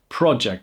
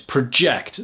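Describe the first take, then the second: First: The stress is on the first syllable. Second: The stress is on the second syllable. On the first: A piece of work in progress. "project is a noun" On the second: To throw something forward. "So the stress is on the ject"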